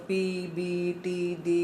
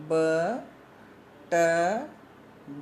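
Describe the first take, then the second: First: पी बी टी डी said as English letter names pee bee tee dee; the incorrect way, read as English letters; wrong English letter names. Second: The correct way, one isolated consonant at a time; pure consonant sounds. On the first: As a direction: spell out पी बी टी डी like the English alphabet, the wrong way. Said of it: "ऐसे नहीं बोलना इसको". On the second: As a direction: say ब, ट, ड as sounds, not as English letter names. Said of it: "इसको हम pronounce करेंगे". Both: Shown as a demonstration.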